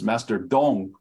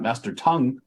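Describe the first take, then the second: First: The name begins with a D sound. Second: The name begins with a T sound. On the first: The speaker calls it right. "It is Master Dong" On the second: The speaker calls it wrong. "It is not Master Tongue"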